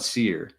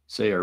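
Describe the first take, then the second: First: The name sounds like 'seer', one syllable. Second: The name sounds like 'sayer', two syllables. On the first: The speaker calls it wrong. "It's not Seer" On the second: The speaker calls it right.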